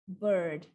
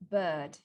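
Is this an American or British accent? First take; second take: American; British. First: A long vowel with an R sound. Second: A long vowel with no R sound. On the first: "The American version, they like their R's" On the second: "the British version first without the R sound"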